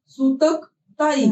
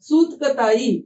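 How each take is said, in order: First: The word is split into two parts. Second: The word is said as one unbroken unit.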